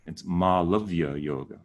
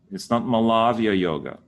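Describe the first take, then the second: First: Malavya with a long first ah and the rest short; correct pronunciation. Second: Malavya with a short first a and a long middle ah; wrong pronunciation. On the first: Teacher giving the right Malavya. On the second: Teacher showing the wrong Malavya. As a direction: say Malavya the gringo way. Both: Shown as a demonstration.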